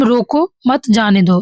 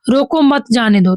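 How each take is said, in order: First: Slower, with a comma break right after रोको; comma pause. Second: Said in the usual way. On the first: Shown as a demonstration. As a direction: clear pause after रोको, then मत जाने दो. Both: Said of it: "comma होगा, अल्प विराम".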